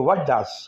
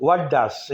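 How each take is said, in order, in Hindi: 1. t छोड़ दिया जाता है और 'does' में मिल जाता है। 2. t छोड़ दिया जाता है और 'does' में मिल जाता है।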